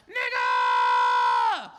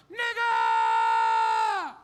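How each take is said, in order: First: Much lower, loud yelled slur. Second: Very high, loud yelled slur. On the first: Heckler yells back when dared, deep and loud. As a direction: bellow it deep from the crowd. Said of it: "He was like". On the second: Heckler yells at the comic from the crowd, very loud and high. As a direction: scream it across the room. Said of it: "he just yelled out". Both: Retold or imitated.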